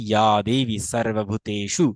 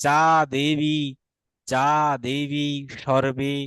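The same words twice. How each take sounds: First: 'ya devi sarvabhuteshu' for ইয়া দেবী সর্বভূতেষু; a 'y' glide in ইয়া, true 's' in সর্বভূতেষু; Sanskrit dental s. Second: Slow 'ja debi shorbe' for যা দেবী সর্বে; hard 'j' in যা and 'sh' in সর্বে; Bengali pronunciation. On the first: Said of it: "এটা দন্ত উচ্চারণ হবে". (সংস্কৃত উচ্চারণে ইয়া দেবী সর্বভূতেষু) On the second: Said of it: "Bangla আমরা উচ্চারণ করতাম". (বাংলা উচ্চারণে যা দেবী সর্বে) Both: Shown as a demonstration.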